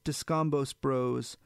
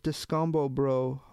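First: "Descambos Bros" with the final s pronounced; final s sounded. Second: "Descambo Bro" French-style, no s sounds at the ends; silent final s. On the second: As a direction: leave "Bro" open, ending on the o in "Descambo Bro". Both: A narrator's reading. Retake corrects the French name.

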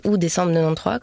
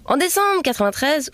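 First: "quatre-vingt-treize" said Swiss style as nonante-trois; Swiss pronunciation. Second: "quatre-vingt-treize" said the French way; French pronunciation. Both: Shown as a demonstration. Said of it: "comme on dirait si j'étais encore en Suisse".

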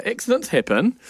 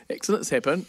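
First: "Accidents happen." said higher and bright, first take; bright reassurance. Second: "Accidents happen." repeated softer, trailing off. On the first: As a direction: chirp "Accidents happen." to brush it off. Partner reassures child, repeats. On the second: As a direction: let the second "Accidents happen." fall quiet. Partner repeats reassurance. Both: Retold or imitated.

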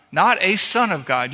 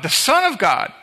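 First: "not a son of God" with "not" punched and "a" left light; stress on not. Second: "the Son of God" with "the" pushed high and strong, as the only one; stress on the. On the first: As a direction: lean on "not", throw "a" away. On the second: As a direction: hit "the" hard, high pitch. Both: Shown as a demonstration.

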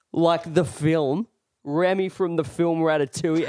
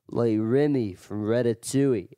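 First: Pointed clarifying. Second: Lightly imitated drunk Irishman; a touch of Irish, insistent; Irish accent. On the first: Retold or imitated. Storyteller explaining to a confused drunk, pointed clarifying. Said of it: "I just look at him and I go". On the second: Drunk Irishman repeating himself to a stranger, light Irish accent. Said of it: "And he goes".

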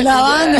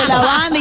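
First: "La banda" echoed higher through a laugh; laughing disbelief. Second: "La banda" called out higher, urgent; a voice from the side suddenly remembering the sash; sudden reminder. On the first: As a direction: repeat it half-laughing, unable to believe it. Her own stunned echo. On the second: Someone reminds her of sash. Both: Retold or imitated.

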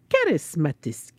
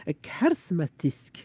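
First: Karismatisk drawn out slowly in a Swedish way; Swedish pronunciation on request. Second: Karismatisk said slowly and carefully in a Swedish way; Swedish pronunciation. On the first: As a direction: karismatisk savoured with a Swedish sound. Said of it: "say it again". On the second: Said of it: "You have to say the Swedish thing". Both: Shown as a demonstration.

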